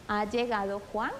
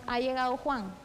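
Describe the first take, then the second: First: It is said with question intonation. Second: It is said with plain statement intonation. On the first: It asks whether he has arrived. "debemos de cambiar la entonación de nuestra voz para expresarla" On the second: It asserts that he has arrived. "Si lo decimos como una enunciativa"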